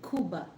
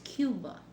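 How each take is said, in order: First: Cuba is said like in Scarface. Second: Cuba is said with an American accent.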